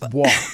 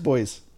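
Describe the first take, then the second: First: The word is said the French way. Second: The word is said the plain English way.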